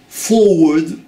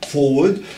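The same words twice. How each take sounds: First: The word is said slowly with careful articulation. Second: The word is said quickly without careful articulation.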